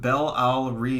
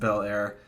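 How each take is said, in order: First: The name is said with three syllables. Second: The name is said with two syllables. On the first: The speaker calls it wrong. "I said Bel Al Ri" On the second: The speaker calls it right. "pronounced Bel Air. ... the E is silent"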